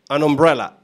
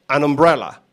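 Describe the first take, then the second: Both takes have the same delivery.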